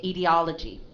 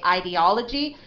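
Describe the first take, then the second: First: IDEOLOGY starting with "ih" or "ee"; short I. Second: IDEOLOGY starting with "eye"; long I. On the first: Teacher shows a student two readings, IDEOLOGY with short I. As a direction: say "ee-dee-OL-uh-jee", no "eye" sound. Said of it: "or a short I". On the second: Teacher shows a student two readings, IDEOLOGY with long I. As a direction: say "eye-dee-OL-uh-jee", long I first. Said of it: "the first sound as a long I". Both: Shown as a demonstration.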